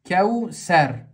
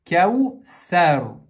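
First: The middle consonant is a plain s sound. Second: The middle consonant is an interdental th sound. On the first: The speaker calls it wrong. "Са читают как син. ... Ошибка" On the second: The speaker calls it right. "здесь буква межзубная са"

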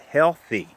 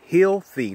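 First: The first syllable has a short e vowel. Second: The first syllable has a long ee vowel. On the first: It evokes hell, which is negative. The speaker calls it wrong. "not healthy ... you're saying the word hell" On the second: It connects to the heels of the feet. The speaker calls it right. "say healthy, ... this is connecting to the heels"

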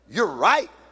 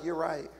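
First: It is said loudly and emphatically. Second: It is said flatly, without emphasis.

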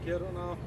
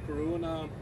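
First: The name is said with a native Swedish pronunciation. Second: The name is said with an American pronunciation.

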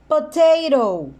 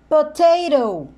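The two takes are said the same way.

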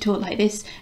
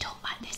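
First: It is said loudly, in a full voice. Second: It is said quietly, in a hushed voice. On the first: The speaker does not care who overhears. The speaker calls it wrong. "I'm going to talk like this, and I don't care if anyone hears us" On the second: This is how a secret should be discussed. The speaker calls it right. "I'm not going to talk like this"

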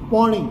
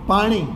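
First: The first vowel is an open 'o' sound. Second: The first vowel is an open 'aa' sound. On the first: This is the Charotar dialect form. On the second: This is the standard form.

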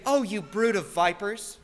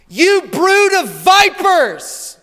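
First: It is said softly and mildly. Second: It is yelled loudly.

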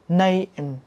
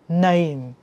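Both takes have the same delivery.

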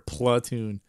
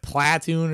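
First: The first vowel is a reduced 'uh' sound. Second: The first vowel is an open 'ah' sound.

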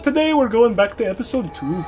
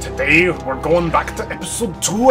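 First: It is said without a Scottish accent. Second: It is said with a Scottish, Scrooge-like accent.

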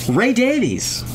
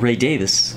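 First: The surname ends with a long 'veez' sound. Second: The surname ends with a short 'vis' sound. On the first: The speaker calls it wrong. "Everybody in the U.S. says Davies, but we're all saying it wrong" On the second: The speaker calls it right. "if you're saying it properly"

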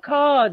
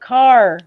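First: The final R sound is dropped. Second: The final R sound is clearly pronounced. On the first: "açıkça telaffuz edilmediği için ka dersiniz" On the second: "Amerika'daki İngilizce'deki R sesi arkadan gelen bir sestir"

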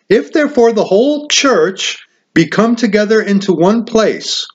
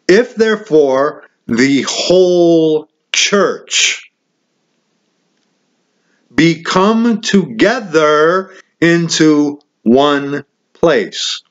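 First: It is read at normal speed. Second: It is read slowly.

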